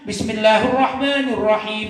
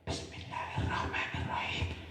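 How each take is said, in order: First: It is recited loudly in a full voice. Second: It is recited softly, barely above a whisper. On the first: Others around can hear it. The speaker calls it wrong. "Dia tidak boleh mengencangkan suaranya" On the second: Only the reciter can hear it. The speaker calls it right. "boleh dengan lisannya tapi pelan-pelan"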